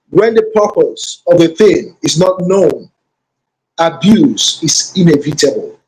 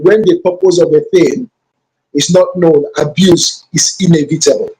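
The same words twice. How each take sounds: First: The sentence is spoken slowly and deliberately. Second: The sentence is spoken at a normal pace.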